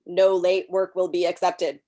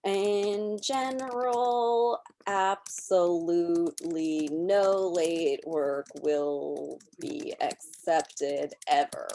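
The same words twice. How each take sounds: First: "no late work will be accepted" with "no" stressed, a bit louder; emphasized sentence. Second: Slow, even dictation of a sample sentence; slow typed-out example text. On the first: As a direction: lean on "no", as a screen reader would stress it. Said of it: "this will say, you know, "Emphasis on". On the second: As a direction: read it out word by word as you type. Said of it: "my normal text is going to say something like". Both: Shown as a demonstration.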